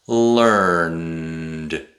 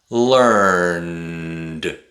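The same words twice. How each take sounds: The two takes are said the same way.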